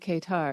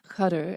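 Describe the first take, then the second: First: The name is said with English pronunciation. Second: The name is said with Arabic pronunciation. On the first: "but in English we say Qatar" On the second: "she pronounced it in Arabic"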